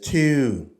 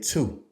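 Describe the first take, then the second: First: It is said with a Baltimore accent. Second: It is said with an Iowa accent.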